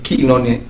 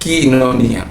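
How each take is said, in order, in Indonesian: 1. Suku kata pertama diucapkan sebagai 'kee'. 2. Suku kata pertama diucapkan sebagai 'kee'.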